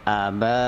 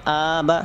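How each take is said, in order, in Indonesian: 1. Vokal pertama dibaca pendek. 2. Vokal pertama dibaca panjang. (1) "a-nya pendek" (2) "banyak yang panjang, jangan terbalik, jangan aba, salah"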